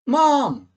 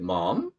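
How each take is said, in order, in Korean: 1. 크게 소리쳐 부르는 거예요. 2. 질문하듯 말하는 거예요. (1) "엄마를 소리 높여 부를 때" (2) "의문형으로"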